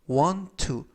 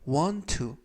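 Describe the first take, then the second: Both takes have the same delivery.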